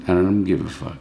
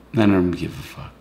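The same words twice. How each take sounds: The two takes are said the same way.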